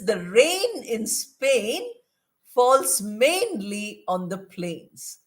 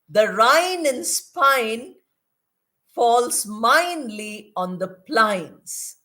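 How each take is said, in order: First: The 'ay' vowels are said like 'ay'. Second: The 'ay' vowels are said like 'eye'. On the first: The speaker uses standard English. The speaker calls it right. "The correct sentence is" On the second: The speaker uses a substandard dialect. The speaker calls it wrong. "A she's pronouncing as I"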